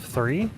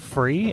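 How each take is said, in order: First: The word begins with a th sound. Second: The word begins with an f sound. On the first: "instead of three" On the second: "English people. They say f- free"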